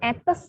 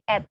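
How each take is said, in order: First: The final s is pronounced. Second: The final s is not pronounced. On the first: The speaker calls it wrong. "bukan etes" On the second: The speaker calls it right. "tapi et. S-nya tidak dilafalkan ya"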